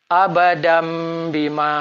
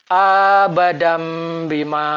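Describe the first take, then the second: First: The first vowel is kept short. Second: The first vowel is drawn out long. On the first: The speaker calls it right. "yang betul" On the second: The speaker calls it wrong. "Bacaan akan berlaku salah sekiranya hamzah kotok dipanjangkan"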